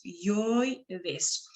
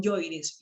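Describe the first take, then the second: First: Yoides slowly, yoi held as one syllable; triphthong demo. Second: Said in the usual way. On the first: Shown as a demonstration. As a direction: stretch yoides into yoi, then des. (yoides lento, con yoi en una sola sílaba) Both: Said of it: "Lo mismo con yoides".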